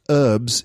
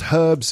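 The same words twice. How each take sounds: First: It is said with an American English pronunciation. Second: It is said with a British English pronunciation. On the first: "pronounced herbs in American English" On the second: "pronounced herbs in British English"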